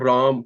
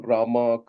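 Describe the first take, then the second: First: The name ends on the consonant, no vowel. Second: The name ends with an added final vowel. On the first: It is the original Sanskrit form. The speaker calls it right. "The real words are Ram" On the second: It is the anglicized form. The speaker calls it wrong. "These things you know come from uh, English influence"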